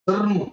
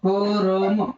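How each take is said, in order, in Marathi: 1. र आणि म यांमध्ये स्वर नाही, ते जोडलेले आहेत. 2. र आणि म यांच्यामध्ये एक स्वर येतो.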